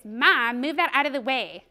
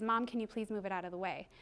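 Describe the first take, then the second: First: Imitated snotty child's order, loud on the first word; bratty demand. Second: Soft, modelled polite ask; polite request. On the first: Mother replaying her daughter's words back to her, bratty demand. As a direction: mimic a child rudely ordering mom. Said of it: "You said it like this". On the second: Shown as a demonstration. Mother modelling the right way for her daughter, polite request. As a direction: ask nicely, quietly and evenly. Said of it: "model for her the right way to say it".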